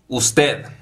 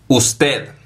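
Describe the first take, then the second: The two takes are said the same way.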